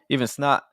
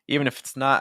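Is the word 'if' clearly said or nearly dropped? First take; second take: dropped; clear. First: The word 'if' is almost dropped. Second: The word 'if' is said clearly. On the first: The speaker calls it wrong. "Where's the F?" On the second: The speaker calls it right. "I still think we need that"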